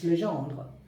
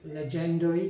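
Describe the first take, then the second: First: The name is said with a French pronunciation. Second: The name is said with an English-style pronunciation. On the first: The speaker calls it right. "I pronounce it quite well because I speak French as well" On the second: The speaker calls it wrong. "some people from India, even the English people, they say legendary"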